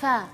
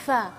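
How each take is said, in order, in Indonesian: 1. Huruf f ringan dengan desis yang lepas. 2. Huruf f ringan dengan desis yang lepas.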